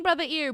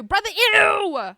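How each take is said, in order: First: Said in the usual way. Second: Drawn-out call. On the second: Shown as a demonstration.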